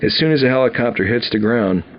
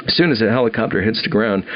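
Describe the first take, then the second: No difference in how they are said.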